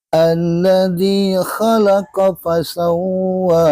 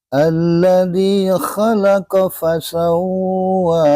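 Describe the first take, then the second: The two takes are said the same way.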